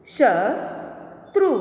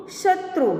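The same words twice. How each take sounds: First: Slow, each sound drawn out, rising at the end; slow drawn-out reading. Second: Said in the usual way. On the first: Shown as a demonstration. Teacher slowly sounding out a word for students, drawn out. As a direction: stretch the word slowly for the class. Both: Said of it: "आगे देखें".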